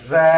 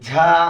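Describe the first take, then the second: First: It starts with a plain 'z' sound. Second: It starts with a breathy 'jh' sound. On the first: The speaker calls it right. "আর যদি বলি জা মাখরাজ থেকে ... এটা হলো সঠিক" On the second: The speaker calls it wrong. "একটা হলো ঝা, এটা ভুল, গলত"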